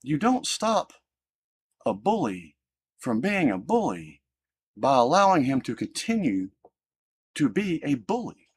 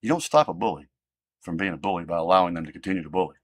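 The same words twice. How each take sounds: First: Slow and deliberate, leaning hard on don't; measured, emphatic teaching voice; firm lesson to his girls. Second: Rattled off fast, lower and flatter; brisk, offhand repeat of the rule; quick restatement. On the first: Retold or imitated. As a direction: spell it out slowly like a lesson to your kids. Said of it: "I said". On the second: Real, not acted. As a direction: toss the line off quickly as a reminder. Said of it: "I don't care".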